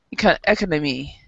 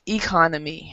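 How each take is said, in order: First: Economy said ECK-uh-nuh-mee with ECK stressed; wrong stress. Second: Economy said ih-KON-uh-mee with KON stressed; correct stress. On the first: Teacher showing students the common mistake, first-syllable stress. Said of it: "they pronounce economy like economy". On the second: Teacher giving students the correct version, stress on KON. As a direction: land on KON in economy, the right way. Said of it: "but remember". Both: Shown as a demonstration.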